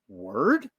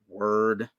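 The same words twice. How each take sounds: First: It is said as a rising question. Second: It is said with anger.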